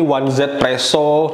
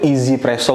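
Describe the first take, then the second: First: The name begins with the word 'one'. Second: The name begins with the word 'easy'. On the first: This is how some people read the written name. "ada yang baca ini one Z Presso" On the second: This is the pronunciation heard on YouTube. "pelafalannya di YouTube tuh Easy Presso"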